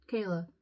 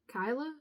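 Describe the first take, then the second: First: Keilah said as KAY-lah, falling and certain; settled pronunciation. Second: Keilah said as KYE-lah, rising like a question; unsure pronunciation. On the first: Reader settling the name, firm KAY-lah. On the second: Reader checking a hard name aloud, doubtful KYE-lah. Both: Shown as a demonstration.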